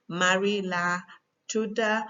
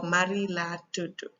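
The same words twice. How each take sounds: First: Gambian Wolof, "tuda" ending in "ah"; Gambian accent. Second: Senegalese Wolof, "tudu" ending in "oo"; Senegalese accent. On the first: Teacher showing how Marie gives her name, Gambian accent. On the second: Teacher showing how Marie gives her name, Senegalese accent. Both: Shown as a demonstration. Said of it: "tudu and tuda is just accent".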